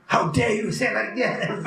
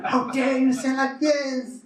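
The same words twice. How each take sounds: First: Indignant how-dare-you, higher voice; mock indignant outburst. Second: Much higher, slower, drawn-out indignation; rising mock fury. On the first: Retreat-goer snapping back at a critic, indignant. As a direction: act out being offended. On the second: Retreat-goer escalating at a critic, higher and slower. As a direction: stretch the outrage further. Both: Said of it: "you become so angry".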